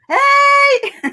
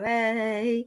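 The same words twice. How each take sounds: First: It is said loudly, with full power. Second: It is said weakly, with little power.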